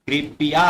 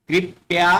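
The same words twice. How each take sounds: First: कृपया in three beats, vowel after p; full p. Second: कृपया in two beats, "krip-ya"; incorrect half p. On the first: Teacher models कृपया giving p its full vowel. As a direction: say कृपया as "kri-pi-yaa", rising. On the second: Teacher reads the mistaken कृपया as "krip-ya". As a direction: say कृपया with no vowel after p. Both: Shown as a demonstration. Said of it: "प पूरा आएगा".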